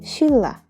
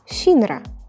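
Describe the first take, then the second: First: The middle sounds are a doubled l. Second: The middle sounds are n followed by r. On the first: The speaker calls it right. "we have to pronounce it as shilla" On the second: The speaker calls it wrong. "it's written as shinra"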